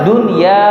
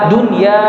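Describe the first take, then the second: Both takes have the same delivery.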